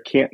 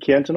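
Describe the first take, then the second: First: The T in the middle is barely pronounced. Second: The T in the middle is clearly pronounced. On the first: This is how locals said it there. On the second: This is how the speaker says it now.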